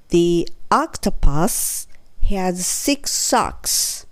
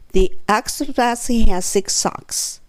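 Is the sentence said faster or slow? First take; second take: slow; faster. First: The sentence is spoken slowly. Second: The sentence is spoken a little faster. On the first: "ゆっくり言ってみますね" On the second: "3 回目は、ちょっとだけ早め"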